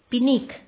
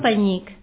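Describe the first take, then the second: First: The first syllable is 'pi', with a plain n. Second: The first syllable is 'pe', with a palatal ny. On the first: This is how some local people said it. "algunes persones pronunciaven pinic" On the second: This is the usual form of the word. "no penyic"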